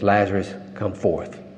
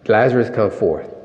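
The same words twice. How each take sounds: First: It is said plainly, without much force. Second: It is said dramatically, with more force.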